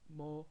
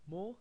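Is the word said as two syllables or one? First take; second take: one syllable; one syllable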